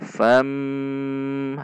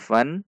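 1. Suku kata ini berakhir dengan m sengau yang panjang. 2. Suku kata ini berakhir dengan bunyi n biasa. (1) "namun fam, harus panjang dibaca dengung" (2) "bukan fan"

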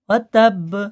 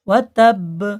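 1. শেষের b একটি ছোট প্রতিধ্বনিময় ঝাঁকুনি দিয়ে শেষ হয়। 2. শেষের b একটি ছোট প্রতিধ্বনিময় ঝাঁকুনি দিয়ে শেষ হয়।

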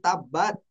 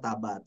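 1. Konsonan tengah dibaca ganda, ditahan. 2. Konsonan tengah dibaca pendek dan tunggal. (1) "harusnya ada tasdid" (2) "dibaca Tabat"

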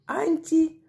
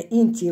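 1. Слово начинается с гласного a. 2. Слово начинается с гласного i.

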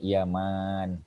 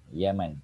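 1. Vokal dalam kata itu panjang. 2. Vokal dalam kata itu pendek. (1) "yang ni Yaman panjang"

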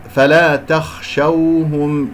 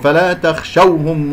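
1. تُنطق الواو بخفة دون نبر زائد. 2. تُنطق الواو بنبر زائد. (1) "ولدينا واو لين" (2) "انت لما قرأت هكذا بالنبر"

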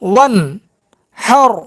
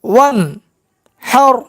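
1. অংশগুলো বিরতি দিয়ে আলাদা আলাদা করে বলা হয়। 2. অংশগুলো বিরতি দিয়ে আলাদা আলাদা করে বলা হয়।

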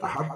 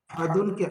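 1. শব্দটি d ধ্বনিতে থামে। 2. শব্দটি -un ধ্বনি দিয়ে শেষ হয়। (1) "সেখানে সাকিন করে দিতে হয়" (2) "আহাদুনকে আহাদ বলতে হচ্ছে কেন?"

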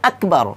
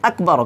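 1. k ধ্বনিটি পূর্ণভাবে ও স্পষ্টভাবে উচ্চারিত হয়েছে। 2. k ধ্বনিটি পূর্ণভাবে ও স্পষ্টভাবে উচ্চারিত হয়েছে।

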